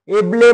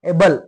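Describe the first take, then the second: First: The word ends with an extra 'eh' vowel. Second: The word ends on the l sound. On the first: The speaker calls it wrong. "एबले म्हणायचं नाही" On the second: The speaker calls it right. "ई हा silent असतो"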